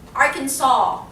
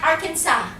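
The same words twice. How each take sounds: First: The last syllable sounds like 'saw'. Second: The last syllable does not sound like 'saw'. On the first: The speaker calls it right. "Like you're saw, sawing something" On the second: The speaker calls it wrong. "Not Arkansas"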